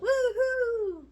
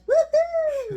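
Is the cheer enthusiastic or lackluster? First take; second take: lackluster; enthusiastic. First: The cheer sounds flat and lackluster. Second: The cheer sounds lively and enthusiastic.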